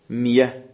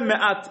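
First: The middle consonant is a y sound. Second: The middle consonant is a glottal stop. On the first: "میتونه تبدیل به حرف عله بشه، میشه میه" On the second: "مثل معت"

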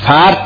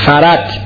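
First: The r is closed with no following vowel. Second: A vowel follows the r before the t. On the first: The speaker calls it wrong. "فرت نخونید" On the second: The speaker calls it right. "فرت بخونید"

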